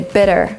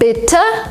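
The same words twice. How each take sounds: First: It is said with an American accent. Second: It is said with a British accent.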